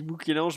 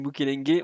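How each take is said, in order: First: The name ends with a nasal 'ange' sound. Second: The name ends with a hard 'engue' sound. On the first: This is how the other person says it. "tu dis Moukélange" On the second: This is how the speaker says it. "moi je dis Moukelengue"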